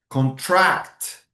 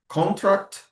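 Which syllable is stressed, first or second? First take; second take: second; first. First: The stress is on the second syllable. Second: The stress is on the first syllable. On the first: It is a verb. "you hire someone" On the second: It is a noun. "a legal agreement"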